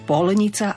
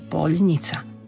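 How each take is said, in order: First: The l sound is hard, not softened. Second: The l sound is soft, palatalized. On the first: The speaker calls it wrong. "nepovieme polnica" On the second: The speaker calls it right. "polnica má mekčeň na ľ"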